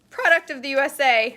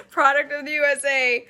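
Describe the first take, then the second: First: Loud, high squeak on the words. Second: Loud, raised, steadier proclamation; loud redo. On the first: Vlogger reading the can label proudly, voice squeaking high and loud. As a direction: proclaim it till the voice squeaks. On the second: Vlogger rereading the label after a squeak, loud amused proclamation. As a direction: proclaim it loudly, amused at yourself. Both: Real, not acted. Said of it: "my voice just squeaked".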